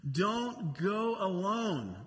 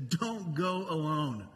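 First: "Don't go alone" drawn out slowly, each word weighted; slow it down so "Don't go alone" sinks in; slow, weighty repeat of "Don't go alone"; slow emphatic repeat. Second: Said in the usual way. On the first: Shown as a demonstration. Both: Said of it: "This is so important".

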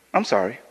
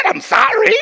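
First: A low, soft, offhand sorry; flat dismissive apology. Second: Higher, impatient repeat of sorry. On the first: Apologizing to the bleeding volunteer, offhand and low. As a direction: toss off the apology without care. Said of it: "Let me show you the effect". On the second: Preacher annoyed the wounded man won't get up, impatient. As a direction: say it again, annoyed he isn't up. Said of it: "I don't know why you're not getting up". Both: Shown as a demonstration.

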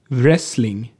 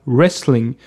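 First: Wrestling with the W sounded as v, "Vrestling"; "Wrestling" starting on an audible vr; especially Swedish pronunciation. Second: Wrestling with silent W, starting on r; "Wrestling" as if spelt "restling". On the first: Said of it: "besonders schwedisch ausgesprochen werden". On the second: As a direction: say "Wrestling" the English way, no v. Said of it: "gibt es aber auch die Aussprache stumm". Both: Shown as a demonstration.

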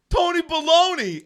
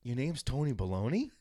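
First: Loud, high-pitched holler; calling out. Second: Softer, halting check; hesitant question. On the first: Kid calls to a supposed friend on the courts, hollering. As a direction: shout a teasing nickname across the yard. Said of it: "I kept going". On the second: Heckler checks the stranger's name, sheepishly asking. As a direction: ask it carefully, imitating your sheepish self. Retold timid question to angry kid. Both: Retold or imitated.

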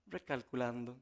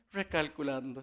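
First: Soft, unbothered machine voice; the GPS calmly reroutes a lost driver, soft and even. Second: Calm GPS voice. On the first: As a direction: say it lower and softer, like the patient GPS. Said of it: "esa vocecita que te da esa tranquilidad". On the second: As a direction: let it land gently, like a patient machine. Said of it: "es esa vocecita". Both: Retold or imitated.

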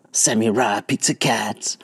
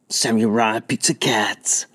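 First: Whispering. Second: Chanting. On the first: Repeat whispered. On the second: Kid chanting cartoon name. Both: Acted.

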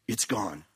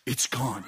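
First: Much lower, soft and spent; exhausted quiet voice. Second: Low and soft, spent; exhausted quiet voice. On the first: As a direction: breathe it out, drained. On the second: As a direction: murmur it out drained. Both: Retold or imitated. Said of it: "In his own voice".

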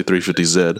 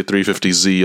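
First: Z said as "zed"; three fifty Z, ending on zed with a d; South African letter name. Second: Z said as "zee"; three fifty Z, ending on a long zee; American letter name. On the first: Host quoting the guest's way, Z as zed. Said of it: "I'll say three fifty Z". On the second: Host showing their own way, Z as zee. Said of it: "we say three fifty Z". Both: Shown as a demonstration.

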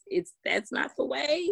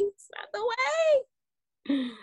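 First: Said in the usual way. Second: High, slow and stretched out, almost sung; preacher-like drawn-out high emphasis; drawn-out emphatic high. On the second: Real, not acted. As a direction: stretch "It's not the way" high and slow, every word weighted, to drive the point home. Repeats her point, then stretches it.

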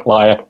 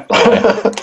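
First: Said in the usual way. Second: High, playful accusation; mock-accuse him with a grin; teasing. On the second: Real, not acted. Teasing the hungover co-host.

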